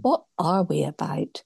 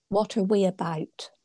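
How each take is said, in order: First: "What" hit first and hardest, in a breathy whisper; stress on what. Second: The word "are" leaned on, falling at the end; stress on are. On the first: Speaker tries a new emphasis on the strap line, whispering. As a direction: lean on "What" in "What are we about?", hushed. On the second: Speaker reads the church strap line, weighting are. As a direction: put the weight on "are" in "What are we about?". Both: Shown as a demonstration. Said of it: "You can put an emphasis on".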